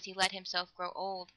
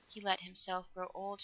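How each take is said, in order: First: Said in the usual way. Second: Soft, musing echo; slow repeat. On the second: A narrator's reading. Girl repeating her thought about the old man, slowly and softly. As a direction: repeat it quietly, as if dwelling on it. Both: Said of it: "she repeated slowly".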